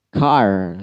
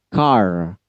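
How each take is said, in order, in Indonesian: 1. Kata ini berakhir dengan bunyi r yang jelas. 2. Kata ini berakhir dengan bunyi r yang jelas.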